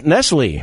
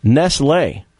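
First: "Nestle" as NESS-lee; familiar Nestle pronunciation. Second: "Nestle" as NESS-lay; true Nestle pronunciation. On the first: Host guessing the chocolate brand's name, familiar pronunciation. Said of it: "It's Nestle, right?". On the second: Host revealing the true brand name, "lay" pronunciation. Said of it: "Is the actual true pronunciation". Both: Shown as a demonstration.

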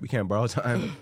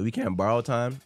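First: Said in the usual way. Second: Cracked voice on the line; voice cracking. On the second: Real, not acted. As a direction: let the voice crack slightly. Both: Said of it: "My voice cracked".

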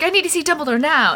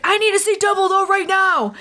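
First: All caps Harry. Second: Higher mock-urgent demand; Harry demanding Dumbledore from the hospital bed, all caps. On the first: Retold or imitated. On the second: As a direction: bark it like a teen in all caps. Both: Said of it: "There is a lot of all caps in this chapter".

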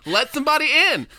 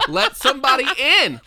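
First: High, loud pleading; raised plea. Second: Laughing, raised pleading; laughing plea. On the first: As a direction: beg it out, raised. Repeated joking plea. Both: Acted.

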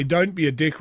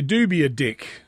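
First: Said in the usual way. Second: "Do" leaned on, the rest light; stress on DO. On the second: Shown as a demonstration. Explaining the Aussie twist to listeners, "Do" stressed. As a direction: punch "Do" to flip the saying. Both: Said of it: "we say in Australia".

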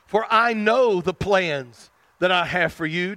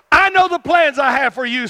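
First: Said in the usual way. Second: Loud, high prophetic declaration; proclaiming as God. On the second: Acted. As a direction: thunder the promise out to the people. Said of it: "go into people and see people and say".

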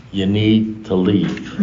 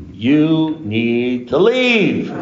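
First: Slow, evenly spaced words at usual pitch; firm, measured advice. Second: Very slow, high, drawn-out words; exasperated insistence. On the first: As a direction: spell it out slowly and calmly. Acted firm advice to sponsee. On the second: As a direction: stretch each word, pitch climbing, to get through. Same advice, escalated, to sponsee. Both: Retold or imitated.

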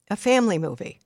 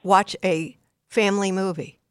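First: "family" hit harder than the rest; stress on family. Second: Said in the usual way. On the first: Shown as a demonstration. Parent advised to choose a "family" movie, stressing family. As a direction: lean on "family", not kid's. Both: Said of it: "Not a kid's movie".

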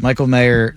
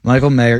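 First: Said in the usual way. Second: Deadpan flat name readout; monotone voice. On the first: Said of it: "No, I love what the Raiders did". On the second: Pretend. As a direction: drop the name like a bored list reader. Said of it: "in a monotone voice".

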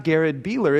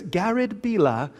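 First: Said in the usual way. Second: "Bila" in a British accent, final r dropped; British pronunciation. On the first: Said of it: "my name's not Garrett Beeler". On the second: Shown as a demonstration. Husband mimicking his British wife saying "Bila", British accent. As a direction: say "Bila" the British way, ending in an open "ah". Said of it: "my wife's British".

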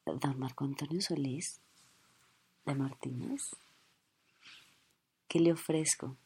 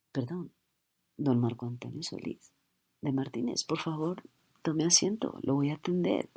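First: Softer, lower, lingering; starstruck hushed offer. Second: Hushed, sweetly polite; softened cashier voice. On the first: Flight attendant softly serving her idol. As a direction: coo at your idol. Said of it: "sería totalmente evidente". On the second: Starstruck cashier softly greeting her idol. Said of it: "Así cambia". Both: Acted.

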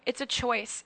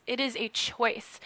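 First: Said in the usual way. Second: Slow, deliberate "is", every word separated; stress on IS. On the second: Real, not acted. Guest insisting worry is optional, slow stress on "is". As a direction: spell it out firmly, leaning on "is". Restates it uncontracted, slower.

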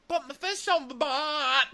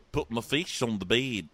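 First: Very high squawked attempt at Kiwi; hammed-up, high-pitched bad accent; botched New Zealand accent. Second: Mock New Zealand accent coaching; patient Kiwi accent demonstration; put-on New Zealand vowels. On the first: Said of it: "like a drunk Mary Poppins". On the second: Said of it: "Let's work on that".

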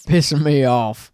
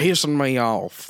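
First: Slow country twang, hammed up; Southern drawl. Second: Southern drawl. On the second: Pretend. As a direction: play a tobacco-chewing country boy. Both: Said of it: "Is that just chaw?".

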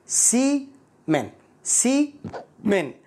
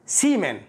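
First: "سيمن" very slow, split, higher pitch; syllable by syllable. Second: Said in the usual way. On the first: Shown as a demonstration. Teacher breaking down "سيمن" for learners, slow and split. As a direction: break "سيمن" into two separated parts.

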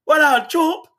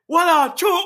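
First: High, breezy Jamaican-style "What up, Chop?". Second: High, stretched Jamaican "What up, Chop?". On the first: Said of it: "him like". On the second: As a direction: repeat his greeting, leaning on the accent. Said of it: "But the way he said". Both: Retold or imitated.

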